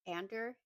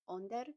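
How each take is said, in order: First: The first vowel sounds like the one in 'and'. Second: The first vowel sounds like the one in 'on'. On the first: The speaker calls it wrong. "not like A N D E R" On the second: The speaker calls it right. "it's pronounced Onder, like O N D E R"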